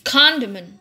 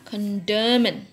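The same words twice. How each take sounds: First: The stress is on the first syllable. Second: The stress is on a later syllable. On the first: The speaker calls it right. "tapi condiment" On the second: The speaker calls it wrong. "Tidak dibaca condiment"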